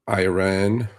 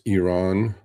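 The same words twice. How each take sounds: First: The first vowel sounds like 'eye'. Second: The first vowel sounds like 'ee'. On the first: The speaker calls it wrong. "it is not Iran" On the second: The speaker calls it right. "it is Iran"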